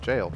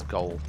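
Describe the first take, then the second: First: It starts with a J sound, like jail. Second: It starts with a hard G, like goal. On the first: The speaker calls it right. "I now know it's just jail" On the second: The speaker calls it wrong. "I used to pronounce it as Goal"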